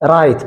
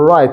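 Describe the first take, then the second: First: The r is tapped with the tongue touching. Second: The r is made without the tongue touching. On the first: The speaker calls it wrong. "right አይደለም። right ከሆነ ነክታለች ማለት ነው" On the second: The speaker calls it right. "እር right right ነው እንጂ"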